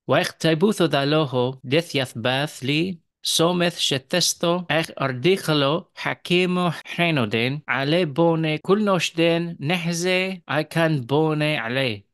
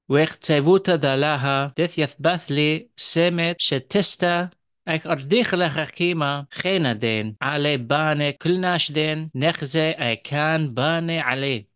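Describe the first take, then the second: First: It is read in a Western Syriac accent. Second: It is read in an Eastern Syriac accent.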